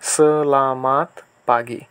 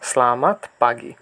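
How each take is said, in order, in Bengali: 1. বাক্যটি ধীরে ও যত্ন সহকারে বলা হয়েছে। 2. বাক্যটি স্বাভাবিক গতিতে, দ্রুত বলা হয়েছে।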